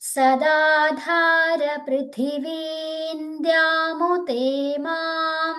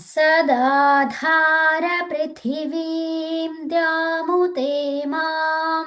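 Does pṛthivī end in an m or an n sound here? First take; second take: n sound; m sound. First: Pṛthivī ends in an n sound before dyām. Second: Pṛthivī ends in an m sound before dyām. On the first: The speaker calls it right. "ఇక్కడ సున్నాకి నకారంగా పలకాలన్నమాట" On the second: The speaker calls it wrong. "నేను తప్పు చెప్పినాను"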